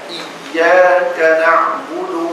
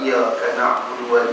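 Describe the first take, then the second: First: The y sound is held and pressed. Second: The y sound is short and not pressed. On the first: The speaker calls it right. "ni kena kena tekan" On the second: The speaker calls it wrong. "dia tak tekan"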